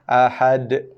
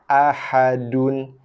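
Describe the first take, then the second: First: The word ends on d with a slight bounce. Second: The word ends with a full vowel and n. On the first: "diwaqafkan jadi baris mati, bila baris mati datang pada dia sifat qalqalah" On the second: "originally baris dan ni berbaris hidup, iaitu berbaris dua hadapan"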